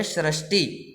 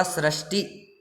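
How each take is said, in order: First: सृष्टि begun with "sh", as "shrashti"; wrong sibilant. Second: सृष्टि begun with a plain "s"; softer सृष्टि, opening on s; correct sibilant. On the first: Teacher citing the mistaken form, सृष्टि with initial sh. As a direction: open सृष्टि on a sh sound. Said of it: "गलत है". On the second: Teacher giving the correct form, सृष्टि with initial s. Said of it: "इसका सही उच्चारण क्या होगा". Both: Shown as a demonstration.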